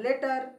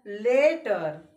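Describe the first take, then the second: First: "letter" said short, first vowel brief; short sound. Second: "letter" very slow, first vowel stretched out; long sound. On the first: Teacher comparing sounds, "letter" in its short form. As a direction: keep "letter" quick and compact. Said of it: "ये short कर रहा है". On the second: Teacher comparing sounds, "letter" heavily lengthened. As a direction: draw "letter" right out, lower. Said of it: "ये ज्यादा खींच रहा है". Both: Shown as a demonstration.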